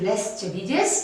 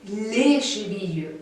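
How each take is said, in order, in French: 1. Le S final est prononcé. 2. Le S final est muet. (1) "Si vous dites les chevilles, on ne va pas vous comprendre" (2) "on ne prononce pas le S"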